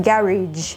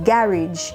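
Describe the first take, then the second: No difference in how they are said.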